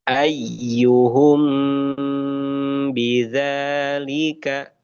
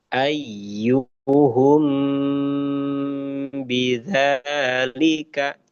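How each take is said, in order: Both takes have the same delivery.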